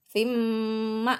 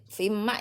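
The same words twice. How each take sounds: First: Sung, linger on the M of "Fim" before "ma"; hummed "Fim", cut off on short "ma"; sung, sustain the nasal M, then release "ma"; nasal hum demo. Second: Quick "fim ma" in a talking voice; unchanted, short "fim ma"; reading started mid-phrase. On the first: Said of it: "Masuk terus didengungkan". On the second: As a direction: say "fim ma" briefly, M barely held. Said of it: "Tapi nggak boleh". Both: Shown as a demonstration.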